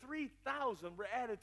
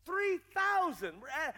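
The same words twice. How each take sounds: First: Said in the usual way. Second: THREE THOUSAND pitched high and punched loud; stress on THREE THOUSAND. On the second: Acted. Preacher marvelling at the converts, THREE THOUSAND high and emphatic.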